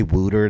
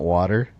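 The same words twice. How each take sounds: First: "wooter" rhyming with footer; regional wooter. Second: Said in the usual way. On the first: Shown as a demonstration. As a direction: say "wooter", not water. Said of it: "With my accent, I say wooter". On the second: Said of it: "not water".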